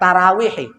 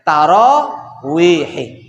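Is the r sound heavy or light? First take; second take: light; heavy. First: The r is said light and thin, like ra. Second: The r is said heavy and full, like ro. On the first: The speaker calls it wrong. "bukan tarawihi" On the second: The speaker calls it right. "pakai ro bukan pakai ra"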